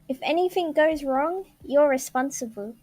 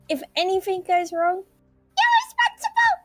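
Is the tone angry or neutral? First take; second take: neutral; angry. First: It is read in a plain, neutral tone. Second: It is read in a stern, angry tone.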